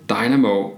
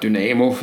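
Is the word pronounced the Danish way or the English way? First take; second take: English; Danish. First: It is pronounced the English way. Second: It is pronounced the Danish way.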